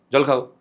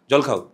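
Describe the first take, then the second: First: "জল খাও" as a firm order, a bit louder; stern old woman's order. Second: A mild commanding "জল খাও", short and firm; imitating a stern old woman. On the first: Retold or imitated. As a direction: order him to drink like a bossy elder. (কড়া আদেশের সুরে "জল খাও") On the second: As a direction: offer water like a stern elder. (হালকা কড়া গলায় "জল খাও") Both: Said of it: "একদম এই টোনে".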